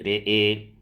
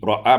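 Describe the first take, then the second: First: The vowels are tilted toward e. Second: The vowels are plain open a sounds.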